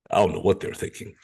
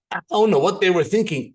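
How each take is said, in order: First: Low-pitched, quick puzzled impression; put-on low voice, mildly bewildered; Stevie. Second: Higher-pitched amused bafflement; incredulous, lightly acted; baffled. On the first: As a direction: imitate a baffled friend, voice dropped deep. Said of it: "that's my impression of Stevie's voice". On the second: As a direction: shrug off their refusal in disbelief. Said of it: "You would go home baffled".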